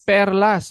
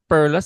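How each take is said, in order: First: The word is said with a Filipino pronunciation. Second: The word is said with an English-style pronunciation. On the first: The speaker calls it right. "It's perlas. You're Filipino. Say it properly" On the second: The speaker calls it wrong. "It's not perlas"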